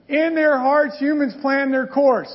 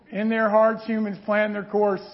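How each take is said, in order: First: Careful reread. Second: Too fast. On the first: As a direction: read it again higher and louder, taking care. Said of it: "I gotta back up". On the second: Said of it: "Whoa, I went too fast". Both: Shown as a demonstration.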